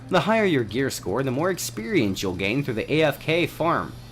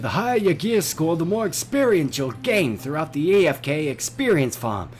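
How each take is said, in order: First: It is said in his normal voice. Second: It is said in a put-on accent.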